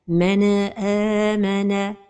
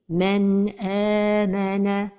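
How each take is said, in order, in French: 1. Le n est relâché avec un rebond résonnant. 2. Le n se fond doucement dans le son suivant. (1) "c'est al-qalqala de an-nun as-sakina" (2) "la prononciation correcte est"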